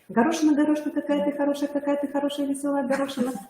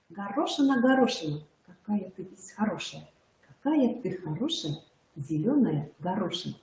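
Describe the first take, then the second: First: It is said very fast. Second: It is said at a normal pace.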